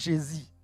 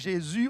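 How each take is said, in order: First: The second syllable uses another vowel, not u. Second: The second syllable has the French u vowel. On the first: The speaker's mother tongue lacks this sound. "il n'y a pas le son U" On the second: This is the standard French pronunciation. "pour dire Jésus"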